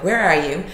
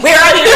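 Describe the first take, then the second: First: Said in the usual way. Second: "Where are you?" squeaked high and loud. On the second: Shown as a demonstration. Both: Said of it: "or I didn't say it like that".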